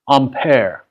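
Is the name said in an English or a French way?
French. The name is said with a French pronunciation. This is how it is said in its home country. The speaker calls it right. "it would actually be pronounced Ampere"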